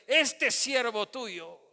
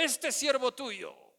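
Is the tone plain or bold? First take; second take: bold; plain. First: It is said boldly, with courage. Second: It is said in a plain, ordinary tone.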